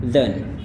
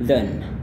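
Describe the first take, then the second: The two takes are said the same way.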